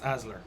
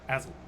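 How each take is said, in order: First: The name ends with an R sound. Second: The name ends without an R sound. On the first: "most Norse spellings have an R at the end" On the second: "the Norse pronunciation is just Asl"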